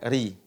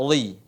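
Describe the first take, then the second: First: RI with thin r and true i; light, unrounded "ri"; ri tipis. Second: RI wrongly heavy, like "rui"; ri tebal. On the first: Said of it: "tapi dibaca ri". (ucapkan "ri" tipis dan benar) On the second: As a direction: thicken the r and round the start of "ri". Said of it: "bukan dibaca ri". (contoh salah: "ri" tebal seperti "rui") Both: Shown as a demonstration.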